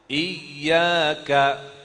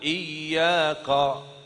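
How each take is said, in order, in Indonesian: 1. Bunyi k itu ringan dan tipis. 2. Bunyi k itu berat dan tebal. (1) "tapi ka" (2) "Qa salah"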